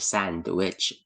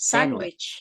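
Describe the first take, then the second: First: The d in sandwich is pronounced. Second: The d in sandwich is silent. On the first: The speaker calls it wrong. "Hindi siya sandwich" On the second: The speaker calls it right. "Walang D"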